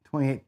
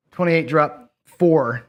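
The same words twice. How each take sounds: First: Said in the usual way. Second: Twenty-eight drop four, slowly, with four leaned on hard; slow it right down and hit four; slow, stress on four. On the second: Real, not acted. Correcting his own bet call, slow with four stressed. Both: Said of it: "Sorry, dropping four".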